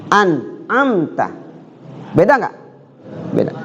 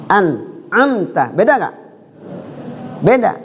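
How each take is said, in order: No difference in how they are said.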